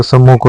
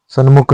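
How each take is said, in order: First: सम्मुख with a doubled म; correct form. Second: सन्मुख with न before म; wrong form. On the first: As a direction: say सम्मुख, sam-mukh. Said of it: "सम्मुख होता है". (सम्मुख, सही रूप, दोहरा म) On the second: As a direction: say सन्मुख, san-mukh. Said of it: "सन्मुख नहीं होता है". (सन्मुख, गलत रूप, न के साथ) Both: Shown as a demonstration.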